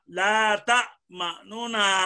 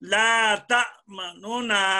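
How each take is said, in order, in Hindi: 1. एक हल्का उ स्वर दोनों नून को अलग करता है। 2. एक हल्का उ स्वर दोनों नून को अलग करता है।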